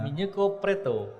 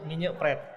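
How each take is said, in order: First: It is said with a Japanese accent. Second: It is said in a plain Indonesian way.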